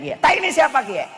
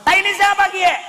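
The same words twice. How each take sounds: First: Raised, curious Ngapak question; Ngapak speaker asking. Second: Much higher and louder Ngapak shout; loud Ngapak cry. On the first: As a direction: ask like a puzzled Tegal man. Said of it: "Orang ngapaknya bilang kayak". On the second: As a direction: yell it in alarm with a Tegal accent. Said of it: "Akhirnya begitu masuk". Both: Retold or imitated.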